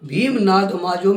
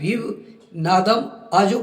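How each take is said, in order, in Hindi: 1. शब्द एक जुड़े हुए टुकड़े में मिले हुए हैं। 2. शब्द छोटे विरामों के साथ अलग-अलग किए गए हैं। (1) "भीम नाद माजो में" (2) "भीम नादम आजो कर दिया"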